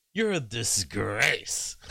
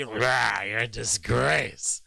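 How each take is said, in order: First: Slow, drawn-out imitation of her delivery; mock Kamala line. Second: Slow, coarse mock Trump growl; a hammed-up grunting Trump jab; dirty piggy Trump tone. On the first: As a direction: lightly copy her practiced intonation. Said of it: "she says it with the same intonation". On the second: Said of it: "this kind of piggy, just very dirty".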